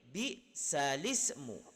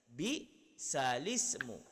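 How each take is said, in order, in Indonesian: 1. Bunyi l langsung menyambung ke vokal berikutnya. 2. Bunyi l langsung menyambung ke vokal berikutnya.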